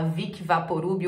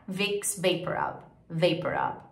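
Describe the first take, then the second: First: "Vic Vaporub" with added I's; Portuguese reading of "Vic Vaporub"; Brazilian pronunciation. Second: "Vaporub" as "VAY-per-rub"; slow, softer "Vicks Vaporub"; English pronunciation. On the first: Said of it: "fala Vic Vaporub". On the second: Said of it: "Em inglês". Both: Shown as a demonstration.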